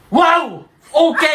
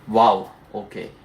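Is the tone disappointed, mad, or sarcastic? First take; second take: mad; disappointed. First: It sounds mad and angry. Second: It sounds disappointed and glum.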